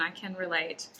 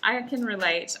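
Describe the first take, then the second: First: Settled, earnest admission after laughing; sincere. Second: Louder, amused admission coming out of laughter. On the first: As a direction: drop the laugh and mean it. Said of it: "but listen, I can relate". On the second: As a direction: own up with a laugh still in the voice. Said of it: "I'm laughing". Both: Real, not acted.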